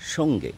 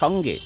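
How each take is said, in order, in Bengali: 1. 'o' স্বরধ্বনিটি জোর দিয়ে উচ্চারিত হয়। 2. 'o' স্বরধ্বনিটি হালকা রাখা হয়। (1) "কিন্তু কানে শুনছি সঙ্গে। তাহলে ওকারের ও এর দাপটটা বেশি।" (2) "কথাটা তো সঙ্গে"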